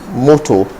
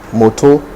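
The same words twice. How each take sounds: First: It is said with a Nigerian English accent. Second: The same.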